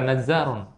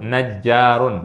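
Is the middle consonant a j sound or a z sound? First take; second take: z sound; j sound. First: The middle consonant is a z sound. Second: The middle consonant is a j sound. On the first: The speaker calls it wrong. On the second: The speaker calls it right.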